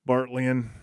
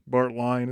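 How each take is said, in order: First: The last syllable sounds like 'lean'. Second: The last syllable sounds like 'line'. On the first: The speaker calls it right. "I believe it's a Bartlean" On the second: The speaker calls it wrong. "as some people like to mispronounce it"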